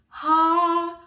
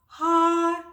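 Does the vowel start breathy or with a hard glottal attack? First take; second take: breathy; breathy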